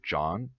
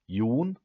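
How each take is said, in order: First: The name has the English vowel, as in John. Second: The name has a Norwegian vowel, rhyming with moon. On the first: The speaker calls it wrong. "that's not the Norwegian way of pronouncing it" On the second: The speaker calls it right. "she listened to me pronounce Jon"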